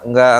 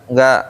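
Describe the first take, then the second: Both takes have the same delivery.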